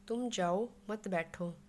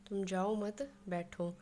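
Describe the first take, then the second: First: तुम जाओ, then a pause before मत बैठो; pause after जाओ. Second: तुम जाओ मत run together, then pause before बैठो; pause after मत. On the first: Teacher showing how pauses change meaning, pause after जाओ. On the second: Teacher showing how pauses change meaning, pause after मत. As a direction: break after मत, leaving बैठो on its own. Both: Shown as a demonstration. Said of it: "इनमें ठहराव अलग-अलग जगह पे आता है".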